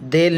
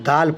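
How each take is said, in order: First: The vowel is an 'e' sound. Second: The vowel is a long 'a' sound. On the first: The speaker calls it wrong. "देल नहीं पढ़ा गया" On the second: The speaker calls it right. "दाल पढ़ा गया है"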